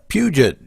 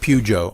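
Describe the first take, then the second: First: The name ends with a 'jet' sound. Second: The name ends with a 'joe' sound. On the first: The speaker calls it wrong. "I knew I would say that wrong" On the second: The speaker calls it right. "it's Pujo actually"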